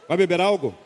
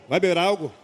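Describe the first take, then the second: The two takes are said the same way.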